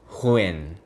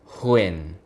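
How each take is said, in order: No difference in how they are said.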